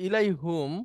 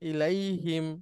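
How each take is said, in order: First: The last syllable has an 'u' vowel. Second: The last syllable has an 'i' vowel. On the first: The speaker calls it wrong. "ইলাই হুমটা ব্যবহার হয় না" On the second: The speaker calls it right. "হয়ে যায় ইলাই হিম"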